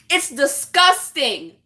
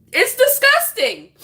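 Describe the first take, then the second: First: Slow, deliberate, contained condemnation; slow disgust. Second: High, outraged exclamation; outraged disgust. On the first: Woman condemning jokes about abuse, slow and contained. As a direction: weigh out each word in disgust. Repeats her verdict, first take. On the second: Woman condemning jokes about abuse, high-pitched outrage. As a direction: push the pitch right up in disgust. Repeats her verdict, heightened. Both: Real, not acted.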